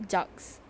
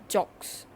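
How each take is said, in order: No difference in how they are said.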